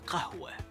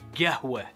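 First: The word is said in a non-local way. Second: The word is said in the local Qatari way. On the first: "or Qahwa" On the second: "That's how we say it"

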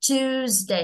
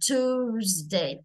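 First: The first vowel sounds like 'yoo' after T. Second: The first vowel is a plain long 'oo' after T. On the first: This is the British pronunciation. "theo anh á thì mình sẽ đọc là âm yêu" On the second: This is the American pronunciation. "anh Mỹ á thì mình sẽ đọc thành âm u u dài"

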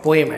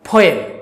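First: The p is plain without a puff. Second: The p is strongly aspirated with a puff. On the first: The speaker calls it wrong. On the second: The speaker calls it right.

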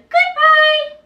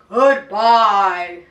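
First: It is said in a high voice. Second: It is said in a low voice.

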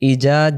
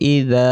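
First: The middle consonant is a hard j sound. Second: The middle consonant is a soft dh sound. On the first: The speaker calls it wrong. "জাল অক্ষরটা ইজা মানে জিম হয়ে যাচ্ছে" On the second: The speaker calls it right. "নরম করে আওয়াজটা হবে"

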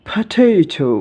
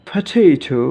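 Both takes have the same delivery.

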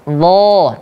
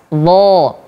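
The two takes are said the same way.

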